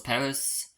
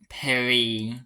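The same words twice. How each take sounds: First: It is said with an English pronunciation. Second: It is said with a French pronunciation. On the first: "for most of the world is Paris" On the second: "I can only pronounce as the French pronounce it"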